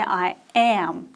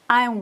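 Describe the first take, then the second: First: Am is said in full and stressed. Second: Am is contracted and left unstressed. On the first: The speaker calls it wrong. "We don't say I am" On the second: The speaker calls it right. "It is contracted, it's not stressed"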